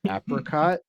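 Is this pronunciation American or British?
American. It is said with an American pronunciation. "American English is apricot"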